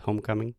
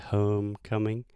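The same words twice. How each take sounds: First: The O vowel is short and pure. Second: The O vowel is long and gliding. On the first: The speaker calls it wrong. "I almost heard homecoming" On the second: The speaker calls it right. "you want to say homecoming. ... that longer O sound"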